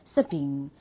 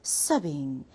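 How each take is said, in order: Both takes have the same delivery.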